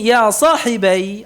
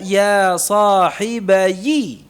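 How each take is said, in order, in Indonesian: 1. Frasa itu berakhir dengan bunyi 'ai' yang tertutup. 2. Frasa itu berakhir dengan suku kata 'yi' yang ditambahkan. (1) "asalnya sukun ya-nya" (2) "Dibaca ya sahibayi"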